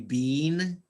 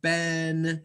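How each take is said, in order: First: The vowel is long, rhyming with 'seen'. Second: The vowel is short, rhyming with 'ten'. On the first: This is the British pronunciation. "British people, Australian people say bean" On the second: This is the American pronunciation. "Americans pronounce it Ben"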